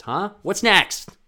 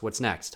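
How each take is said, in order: First: Loud, high demanding taunt; nagging inner critic demanding more; pushy inner voice. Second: Said in the usual way. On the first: Retold or imitated. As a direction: bark it at yourself. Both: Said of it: "that's me talking to myself".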